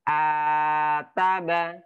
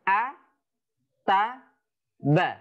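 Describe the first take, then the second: First: The syllables run together with long drawn-out vowels. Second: Each syllable is short, with pauses between them. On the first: The speaker calls it wrong. "daripada membacanya dengan panjang" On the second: The speaker calls it right. "ini lebih dibenarkan"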